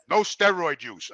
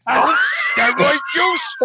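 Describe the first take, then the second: First: Low, slow, meek reading of "No steroid use"; the timid clerk reads the rule slowly; imitating the clerk. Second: Incredulous. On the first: Clerk reading the rule to Jimmy, low and slow. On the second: Retold or imitated. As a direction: throw the rule back at him, stunned. Jimmy repeats it in disbelief.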